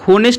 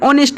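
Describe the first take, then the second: First: The word begins with an h sound. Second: The word begins with a vowel sound. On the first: The speaker calls it wrong. "इसे हम होनेस्ट नहीं पढ़ेंगे" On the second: The speaker calls it right. "An ऑनेस्ट man"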